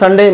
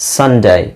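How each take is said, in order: First: The word ends on a plain e vowel. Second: The word ends with a y glide sound. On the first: The speaker calls it wrong. "ಎಲ್ಲರೂ ಸಂಡೇ, ಮಂಡೇ, ಟ್ಯೂಸ್ಡೇ ಅಂತಾನೆ ಹೇಳ್ತಾ ಇದ್ರು" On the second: The speaker calls it right. "But the right pronunciation is ಸಂಡೇ"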